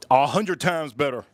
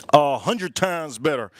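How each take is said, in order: First: Said in the usual way. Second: Slowed right down, leaning on hundred; slow emphatic repeat. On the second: Shown as a demonstration. Repeating it slowly to the cooking audience. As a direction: spell it out slowly for the viewers.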